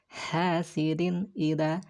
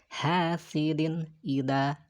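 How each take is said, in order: No difference in how they are said.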